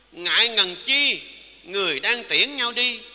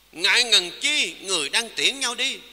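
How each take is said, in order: No difference in how they are said.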